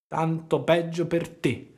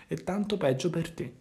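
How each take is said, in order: First: Slow, drawn-out echo of the fox; slow mocking echo from the cat; sly cat's echo. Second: Said in the usual way. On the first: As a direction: let the cat lazily parrot the words. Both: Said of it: "ripeté il gatto".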